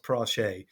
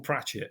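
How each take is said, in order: First: "Prache" said as prah-SHAY; French-style pronunciation. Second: Said in the usual way. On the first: Shown as a demonstration. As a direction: say "Prache" Frenchified, ending in a long "ay". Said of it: "It's actually pronounced Prache". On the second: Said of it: "it is spelt as Pratchett".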